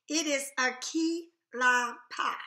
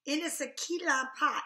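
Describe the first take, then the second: First: Louder, slow, each word stressed; emphatic insistence. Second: Said in the usual way. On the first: Real, not acted. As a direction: insist it is key lime pie. Correcting niece's lemon meringue.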